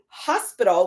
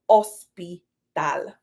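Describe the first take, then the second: First: The word begins with an audible h sound. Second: The word begins with a vowel, h silent. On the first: This is the English pronunciation. "in English we say hospital, we place that emphasis on the H" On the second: This is the Spanish pronunciation. "the H in Spanish is silent"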